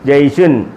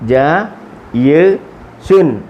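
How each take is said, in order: First: The syllables run together quickly without pauses. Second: The syllables are separated by short pauses.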